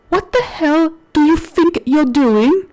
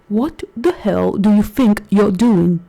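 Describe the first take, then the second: First: It is said in a plain voice. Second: It is said in a put-on sexy voice.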